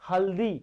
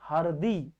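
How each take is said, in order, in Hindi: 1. बीच का व्यंजन L की आवाज़ है। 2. बीच का व्यंजन R की आवाज़ है। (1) "क्या लिखते हैं" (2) "यहाँ क्या हो जाएगा"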